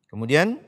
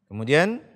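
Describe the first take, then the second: No difference in how they are said.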